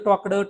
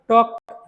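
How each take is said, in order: First: The ending has an extra vowel, two syllables. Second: The ending is a single consonant, one syllable. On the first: The speaker calls it wrong. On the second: The speaker calls it right.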